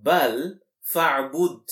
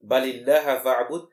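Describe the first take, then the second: First: بَلْ فَاعْبُدْ recited quickly and louder, weight on فَاعْبُدْ; louder recitation of the rearranged verse; reordered phrase. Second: بَلِ اللَّهَ فَاعْبُدْ recited fast and louder, اللَّهَ lifted first; louder verse with اللَّهَ emphasized; stress on Allah. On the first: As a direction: demonstrate the plain word order. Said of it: "What should be the order?". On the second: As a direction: show the fronted word. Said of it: "in fact, Allah alone". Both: Shown as a demonstration.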